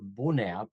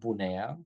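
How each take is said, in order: First: The name is said with Romanian pronunciation. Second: The name is said with English-style pronunciation.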